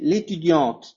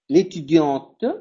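First: The final E is silent and it is faster. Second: The final E is sounded after the T. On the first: "si lo digo en una forma más rápida" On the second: "pero lo hago yo para que se vea la diferencia"

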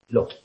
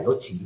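First: The c is sounded like k. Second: The c is sounded like ch. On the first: This is the classical Latin pronunciation. "en latín clásico se pronunciaría qui" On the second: This is the church Latin pronunciation. "En el eclesiástico sería loci o algo así"

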